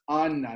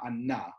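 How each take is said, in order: First: The stress is on the first syllable. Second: The stress is on the last syllable. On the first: The speaker calls it right. "So he says it's Anna, ... So it's Mil El" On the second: The speaker calls it wrong. "not Anna"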